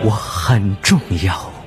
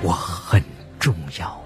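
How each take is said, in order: First: It is said a little louder. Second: It is said quietly, softly.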